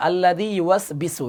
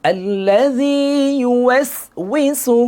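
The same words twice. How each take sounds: First: "ইউয়াসবিসু" with b replacing w; wrong reading. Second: Slow, higher chant with w in "ইউয়াসউইসু"; correct recitation. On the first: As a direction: read plainly, hard b in "ইউয়াসবিসু". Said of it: "এটা totally ভুল". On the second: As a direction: stretch it, gliding "wi" in "ইউয়াসউইসু". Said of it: "সঠিক উচ্চারণ হবে". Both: Shown as a demonstration.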